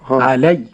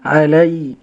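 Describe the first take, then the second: First: The ya sound is tense and clipped. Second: The ya sound is loose and slack. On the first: "هكذا تكون الشدة الخطأ" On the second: "والرخاوة الخطأ أيضا"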